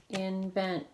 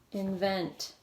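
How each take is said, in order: First: "Invent" in two syllables, in, vent; split into syllables. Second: Said in the usual way. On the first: Shown as a demonstration. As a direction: divide "Invent" between N and V. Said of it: "Two syllables". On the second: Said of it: "where to break it apart".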